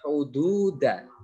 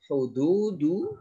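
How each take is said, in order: First: The word ends with an a vowel. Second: The word ends with a u vowel. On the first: "satu lagi" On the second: "kata yang sama namun harokatnya berbeda"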